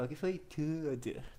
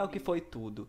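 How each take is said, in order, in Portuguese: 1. É dita de forma extravagante e exagerada. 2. É dita de forma simples e neutra. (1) "É o que foi tudo. ... têm que ter sotaque homossexual" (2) "não é o que foi tudo"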